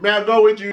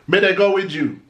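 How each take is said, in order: First: "May I go with you?" said the Kingston way, with a clear "I"; town-style "May I go with you?"; Kingston Patois. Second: "May they go with you?" with "they" in place of "I", rural Jamaican style; country-style "May they go with you?"; country Patois. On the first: Kingston speaker asking to come along, town Patois. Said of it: "someone in Kingston would say". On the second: Country speaker asking to come along, rural Patois. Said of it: "someone in the country would say". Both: Shown as a demonstration.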